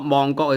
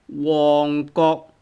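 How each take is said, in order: First: The name begins with an M sound. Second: The name begins with a W sound. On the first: The speaker calls it wrong. "not Mongkok" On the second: The speaker calls it right. "It's called Wong Kok"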